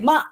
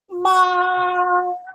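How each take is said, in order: First: The syllable is cut short. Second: The syllable is drawn out long. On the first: The speaker calls it wrong. "You don't say ma" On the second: The speaker calls it right. "syllables are longer in Chinese, so therefore you say ma"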